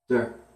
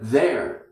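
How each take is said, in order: First: The word is said in a weak form. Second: The word is said in its full form. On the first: "changes, there" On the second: "First word, there, changes"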